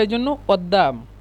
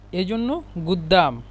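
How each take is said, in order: First: It is said with an Egyptian glottal stop. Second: It is said with a Saudi g sound.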